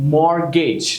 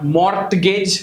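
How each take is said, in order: First: The T is silent. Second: The T is sounded. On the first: The speaker calls it right. "Now these are the places where T is silent" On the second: The speaker calls it wrong.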